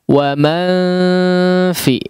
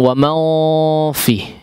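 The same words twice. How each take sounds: First: All the sounds are light and thin. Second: The sounds are heavy and thick. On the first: The speaker calls it right. "Ini semuanya ditipiskan" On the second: The speaker calls it wrong.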